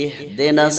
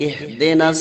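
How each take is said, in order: The two takes are said the same way.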